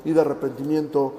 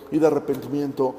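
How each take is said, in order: Both takes have the same delivery.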